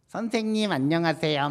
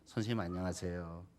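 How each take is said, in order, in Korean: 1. 귀엽고 아이 같은 말투로 했어요. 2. 딱딱하고 격식 있는 말투로 했어요. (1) "말투도 유치원처럼 해야 되는 거예요" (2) "정중하게 인사를 하는 경우가 있어요"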